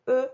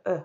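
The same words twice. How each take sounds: First: "E" said as the closed vowel of deux and feu, lips rounded and tight; closed eu sound. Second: "E" said as the open vowel of cœur and peur, mouth more open; open eu sound. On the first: Teacher showing pupils the closed eu sound in "E". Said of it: "on colorie en bleu". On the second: Teacher showing pupils the open eu sound in "E". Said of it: "en vert quand j'entends le E". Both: Shown as a demonstration.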